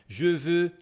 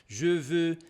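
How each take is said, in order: Both takes have the same delivery.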